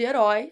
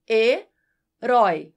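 First: Said in the usual way. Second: Herói said slowly and louder, syllable by syllable; syllables drawn out. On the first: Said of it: "Quando você divide as sílabas de herói". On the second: Shown as a demonstration. Teacher demonstrating the syllables of herói, slow. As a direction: stretch out herói to show where the stress falls. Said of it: "fica assim".

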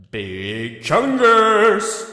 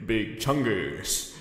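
First: Loud, slow and higher Big Chungus; booming reveal. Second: Said in the usual way. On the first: Acted. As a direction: announce the name like a big reveal. Announcing his Halloween costume.

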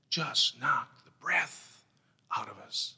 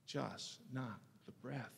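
First: Slow emphasis. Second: Hushed. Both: Acted.

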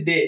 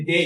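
First: ডে with a short plain Bangla 'e'; Bangla-style pronunciation. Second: ডে ending in a gliding 'ei', like English day; English 'ei' glide. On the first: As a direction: say ডে the Bangla way, no glide at the end. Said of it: "বাংলার মতো করে বলতেছি". (ডে বাংলার মতো সোজা 'এ' দিয়ে) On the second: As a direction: stretch ডে into 'dey'. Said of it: "তাহলে এটাকে আমরা যদি বলি". (ডে ইংরেজি উচ্চারণে, শেষে 'ই' যোগ করে ডেই) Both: Shown as a demonstration.

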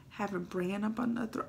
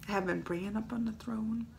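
First: Said in the usual way. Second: Whispered through a laugh, much softer; laugh-cry it under your breath; teary laughing whisper. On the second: Real, not acted. Fan tearfully laughing about Bran on the throne. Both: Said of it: "I should have had more Kleenex".

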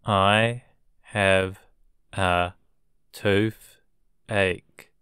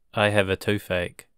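First: I have, a, toothache with pauses between; word by word. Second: Said in the usual way. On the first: Shown as a demonstration. Teacher chunking a sentence for learners with pauses. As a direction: break it into chunks. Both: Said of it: "teacher drilling vocabulary".

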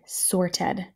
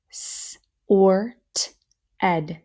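First: Said in the usual way. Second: "Sort" stretched as s, or, t, then "ed"; sounded out. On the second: Shown as a demonstration. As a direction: sound out Sort, ed in separate parts. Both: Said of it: "Let's do our next row".

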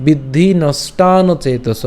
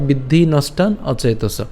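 First: "নষ্টান অচেতস" drawn out and linked; joined pronunciation. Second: "নষ্টান" then separate "অচেতস"; split pronunciation. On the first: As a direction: slowly run long নষ্টান into অচেতস. ("নষ্টান অচেতস" টেনে একসাথে উচ্চারণ) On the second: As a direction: keep নষ্টান and অচেতস apart. ("নষ্টান অচেতস" আলাদা করে উচ্চারণ) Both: Shown as a demonstration. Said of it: "অথবা".

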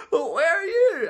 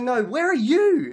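First: Very high, hammed-up wailing question; tearful wife. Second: Slow, loud and high, leaning on "you"; exasperated stress on YOU. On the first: Crying wife asking back over the phone, mock tearful wail. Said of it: "I understand that cry anywhere". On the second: Acted. Husband turning the question on his wife, hard stress on "you". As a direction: throw it back, stretching "you".

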